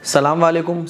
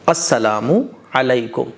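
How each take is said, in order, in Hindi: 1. अभिवादन छोटा कर दिया जाता है, उसके कुछ शब्दांश छोड़े और मिलाए जाते हैं। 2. अभिवादन का हर शब्दांश पूरी तरह बोला जाता है। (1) "ये सब गलत है" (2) "सलाम जो है वो है अस्सलामु अलैकुम"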